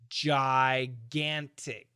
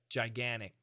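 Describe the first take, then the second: First: The T sound is clearly pronounced. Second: The T sound is dropped. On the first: "the perfect pronunciation is gigantic" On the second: "He said gigantic, gigantic. And he canceled out that T sound"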